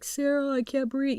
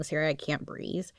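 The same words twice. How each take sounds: First: Higher trapped plea for help; pleading call. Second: Softer, fading weak plea; weaker call. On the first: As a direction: cry out to her, still strong. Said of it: "he's like". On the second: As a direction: barely get the words out. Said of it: "his calls were a little bit weaker". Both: Retold or imitated.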